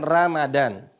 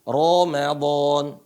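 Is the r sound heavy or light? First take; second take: light; heavy. First: The r is pronounced light and thin. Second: The r is pronounced heavy and thick. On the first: The speaker calls it wrong. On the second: The speaker calls it right. "dibaca Ramadan ya"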